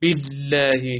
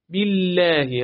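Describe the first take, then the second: First: باللهی with the ل hit too hard; overdone lam. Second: باللهی with a moderate, doubled ل; just-right lam. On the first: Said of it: "پس نخوین". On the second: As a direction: hold the ل in باللهی just enough. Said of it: "انقدر کافیه". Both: Shown as a demonstration.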